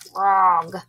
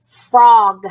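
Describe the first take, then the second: First: Softer, lower "Frog."; quiet puppet echo. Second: Said in the usual way. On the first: Shown as a demonstration. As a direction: repeat it back like Steve. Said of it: "You and Steve will repeat". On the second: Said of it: "repeat the word after me".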